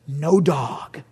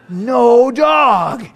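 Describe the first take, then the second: First: Said in the usual way. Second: Louder, higher triumphant shout. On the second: Acted. Preacher shouting his joy to the congregation, loud. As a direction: crow it to the crowd.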